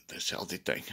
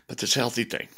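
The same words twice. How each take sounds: First: Whispered echo. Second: Said in the usual way. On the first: Real, not acted. Muttering to Deb about the healthy food he dreads, whispered. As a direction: drop to a breathy whisper on the repeat.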